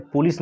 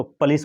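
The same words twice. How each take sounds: First: पुलिस said POO-lis, rounded first vowel; wrong pronunciation. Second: पुलिस said puh-LEES, neutral first vowel; correct pronunciation. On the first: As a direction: stretch the 'oo' at the start of पुलिस. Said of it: "पुलिस नहीं पढ़ेंगे". (पुलिस को 'पूलिस' जैसा बोलना) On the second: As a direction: begin पुलिस with a quick 'puh', then 'lees'. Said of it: "इसको पुलिस पढ़ेंगे". (पुलिस को 'पलीस' जैसा बोलना) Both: Shown as a demonstration.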